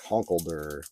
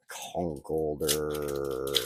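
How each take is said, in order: First: Said in the usual way. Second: Conkeldurr stretched out very slowly; slow drawn out. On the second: Shown as a demonstration. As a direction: savor each syllable of Conkeldurr. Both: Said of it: "what a weird name".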